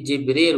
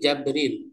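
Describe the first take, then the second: First: The first vowel is an 'i' sound. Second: The first vowel is an 'a' sound. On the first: "bikasril jim dengan mempatahkan jim, berarti Jibril" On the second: "memfatahkan berarti Jabril"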